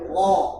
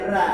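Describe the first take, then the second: First: The r sound is heavy and thick. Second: The r sound is light and thin. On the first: The speaker calls it right. "Takbir tebal" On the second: The speaker calls it wrong. "enggak boleh dibaca ra"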